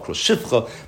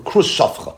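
First: The second word has an 'i' after 'sh'. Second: The second word has an 'a' after 'sh'. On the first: The speaker calls it wrong. "might be yisrael krus shifcha" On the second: The speaker calls it right. "That's actually the proper pronunciation"

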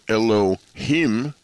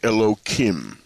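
First: The middle consonant is an h sound. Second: The middle consonant is a k sound. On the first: The divine name is said in full. "instead of saying Elohim" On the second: The divine name is disguised out of respect. "you get the letter Kuf"

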